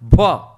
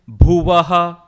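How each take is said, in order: First: The word ends without a breathy final ha. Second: The word ends with a breathy final ha. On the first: The speaker calls it wrong. "it is not Bhuva" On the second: The speaker calls it right. "It is Bhuvaha"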